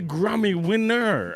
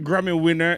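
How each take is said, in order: First: The phrase is said slowly and with emphasis. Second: The phrase is said quickly and casually. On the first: The achievement is taken seriously. The speaker calls it right. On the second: The achievement is passed over lightly. The speaker calls it wrong.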